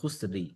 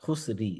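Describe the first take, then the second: The two takes are said the same way.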